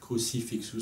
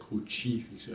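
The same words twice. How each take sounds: First: It is said with a French pronunciation. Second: It is said the Italian way, with a 'tch' sound. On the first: "ce serait le, la, la prononciation française" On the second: "avec le tche, c'est la prononciation à l'italienne"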